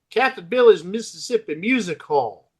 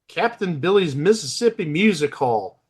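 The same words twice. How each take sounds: First: It is said with a Southern twang. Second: It is said in a plain, neutral accent.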